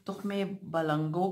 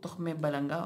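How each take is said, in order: First: "बलंगो" ending in an o sound; variant pronunciation. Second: "बलंगा" ending in an aa sound; variant pronunciation. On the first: Vlogger shows how some people say it, "बलंगो" ending in o. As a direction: say "बलंगो" with a final o. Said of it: "कुछ लोग ... बोलते हैं". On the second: Vlogger shows another way people say it, "बलंगा" ending in aa. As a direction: say "बलंगा" with b first and a final aa. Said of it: "कुछ लोग". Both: Shown as a demonstration.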